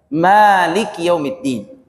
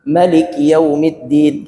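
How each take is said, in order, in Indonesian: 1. Vokal pertama dari Malik dibaca panjang. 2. Vokal pertama dari Malik dibaca pendek. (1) "panjang kan?" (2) "itu baca pen pendek"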